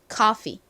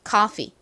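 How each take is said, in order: First: The final vowel is short and clipped. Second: The same.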